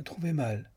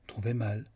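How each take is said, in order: First: Cheerful. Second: Said in the usual way. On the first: Acted. Julia walking back to the château, cheerfully echoing him. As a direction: repeat it brightly, as if amused. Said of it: "reprit-elle gaiement". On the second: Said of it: "répéta Julia".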